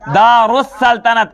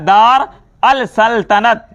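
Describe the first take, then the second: First: The l is silent and merges into 'us'. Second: The article is said as 'al' with an l. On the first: The speaker calls it right. "अलिफ और लाम silent हो जाता है" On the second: The speaker calls it wrong. "लेकिन ये पढ़ा क्या जाता है?"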